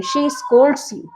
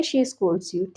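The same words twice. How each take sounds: First: Very slow, word by word for learners; slow dictation. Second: Said in the usual way. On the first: Shown as a demonstration. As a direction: drag each word out for the class. (धीरे-धीरे, हर शब्द अलग) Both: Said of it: "वह तुम्हें डांटती है".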